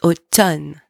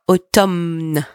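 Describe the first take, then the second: First: The M sound is silent. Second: The M sound is pronounced. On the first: The speaker calls it right. "Pretend that the M is not even there" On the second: The speaker calls it wrong. "It's not automne"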